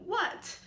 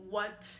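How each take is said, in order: First: The word is said with Mandarin's fourth tone. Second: The word is said on a flat, level pitch. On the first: It is more a statement, happy and excited. "And the fourth tone" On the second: It is a genuine question. "The first flat syllable kind of implies a genuine question"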